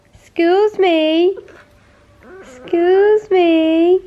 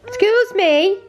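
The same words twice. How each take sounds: First: Slow, drawn-out high coo. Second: Mock offended. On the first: Drawn-out baby talk. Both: Real, not acted.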